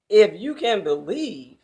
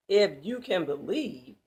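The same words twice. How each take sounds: First: Loud, incredulous sarcastic question. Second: Said in the usual way. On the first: Acted. Jesus sarcastically questioning the father's doubt, loud. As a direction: throw the words back at him mockingly. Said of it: "in a sarcastic question". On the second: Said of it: "it's posed as a question".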